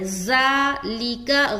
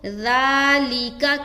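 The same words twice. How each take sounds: First: The first sound is a buzzing, hissing z. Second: The first sound is a soft, fine th without hiss. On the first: The speaker calls it wrong. "ज़ालिका गलत है। ज़ा ज़ा" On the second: The speaker calls it right. "ज़ाल को नरमी के साथ बारीक अदा करेंगे बगैर सीटी के"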